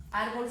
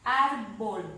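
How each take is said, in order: First: Said in the usual way. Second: "Árbol" with ÁR punched loud; drawn-out "Árbol", force on ÁR; stressed syllable demo. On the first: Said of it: "árbol sí". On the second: Shown as a demonstration. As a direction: hit ÁR, then drop away in "Árbol". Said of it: "identifico la fuerza de voz".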